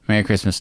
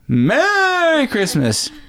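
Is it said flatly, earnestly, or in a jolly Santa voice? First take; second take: flatly; Santa voice. First: It is said flatly, without feeling. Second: It is said in a jolly Santa voice.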